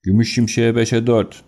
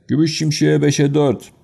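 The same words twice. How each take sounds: First: Said in the usual way. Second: Higher calling announcer voice; track announcer call. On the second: Acted. Race announcer calling odds to the crowd, ringing call. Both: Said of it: "diye bir ses geldi".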